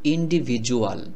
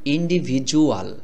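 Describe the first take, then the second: First: The middle consonant sounds like a 'j'. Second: The middle consonant sounds like a 'j'.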